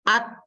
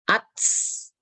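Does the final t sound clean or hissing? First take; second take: clean; hissing. First: The final t is clean, without hiss. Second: The final t has a hissing s sound. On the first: The speaker calls it right. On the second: The speaker calls it wrong. "Jangan sampai ada S-nya"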